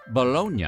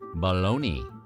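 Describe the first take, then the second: First: The word is pronounced the Italian way. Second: The word is pronounced the English way. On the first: This is how the city's name is said in Italy. "in Italy, that city is pronounced Bologna" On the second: This is what the sausage is called in English. "why do we call this sweetmeat bologna?"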